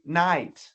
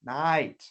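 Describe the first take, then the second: No difference in how they are said.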